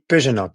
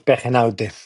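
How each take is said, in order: First: The name is pronounced the French way. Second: The name is pronounced the Spanish way. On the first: "In French, they say Pejenot" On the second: "It's a Spanish name"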